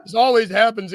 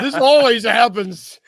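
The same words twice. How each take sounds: First: Laughing through the same complaint; laughing repeat. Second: Slow, loud, higher complaint; mock lament. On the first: Pretend. To his cohost again, laughing as he repeats the complaint. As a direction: let the joke crack you up. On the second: To his cohost about being let go, a slow mock lament. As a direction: play the put-upon victim, dragging it out.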